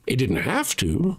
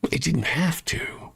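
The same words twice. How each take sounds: First: Said in the usual way. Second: Slow, pointed whisper; hushed, knowing whisper. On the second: Real, not acted. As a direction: whisper it like a secret. Repeats line, then whispers it.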